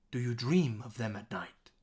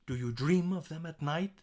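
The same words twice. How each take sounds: First: DREAM punched, "night" falling at the end; stress on DREAM. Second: DREAM lifted, NIGHT rising as a question; stress DREAM, NIGHT. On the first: Teacher demonstrating the key words, stressed with falling end. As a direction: hit "dream", then let "of them at night" drop. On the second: Teacher demonstrating the key words, stressed with rising end. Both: Shown as a demonstration. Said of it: "Dream and night are the two things".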